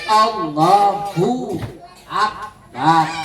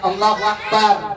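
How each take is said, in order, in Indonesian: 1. Tidak ada bunyi w sebelum Akbar. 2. Bunyi w menghubungkan Allahu dengan Akbar. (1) "tapi Allahu Akbar. Nggak ada wanya"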